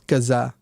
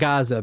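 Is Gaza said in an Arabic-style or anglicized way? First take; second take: Arabic-style; anglicized. First: Gaza is said with an Arabic-style pronunciation. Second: Gaza is said with an anglicized English pronunciation. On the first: The speaker calls it right. "It's Gaza" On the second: The speaker calls it wrong. "It's not Gaza, people"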